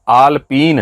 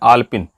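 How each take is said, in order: First: The last vowel is long. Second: The last vowel is short. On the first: The speaker calls it right. "जबकि वो आलपीन है" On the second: The speaker calls it wrong. "उच्चारण में कितनी गलती कर रहे हैं"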